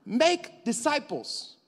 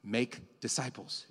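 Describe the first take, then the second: First: High and slow, each word stretched; booming slow mandate; proclaimed command. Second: Lower, softer and slow; quiet solemn quote. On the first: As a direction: drive the command home. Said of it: "preacher repeats the command". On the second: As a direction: let Jesus' words land softly. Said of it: "But Jesus said". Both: Shown as a demonstration.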